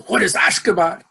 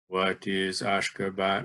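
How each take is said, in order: First: It is said loudly with great energy. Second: It is said calmly at ordinary loudness. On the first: "emitted with vigor that's considerably greater than necessary" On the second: "You don't merely say"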